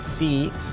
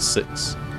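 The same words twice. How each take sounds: First: The vowel is drawn out, Australian style. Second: The vowel is short and plain.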